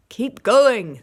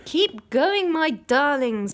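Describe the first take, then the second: First: Much louder shout. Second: Breathless, higher and louder; panting. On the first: Boggis shouting to Bunce and Bean, loud. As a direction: bellow it at the other farmers. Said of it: "the fat Boggis shouted". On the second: Mister Fox panting encouragement to his children. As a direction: push on while out of breath. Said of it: "panted Mister Fox". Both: A narrator's reading.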